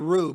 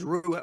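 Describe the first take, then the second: First: The name is said as one short syllable. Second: The name is said with two syllables. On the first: This is the casual everyday way. "we just say Ru" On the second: This is the proper way. "the proper is Rua"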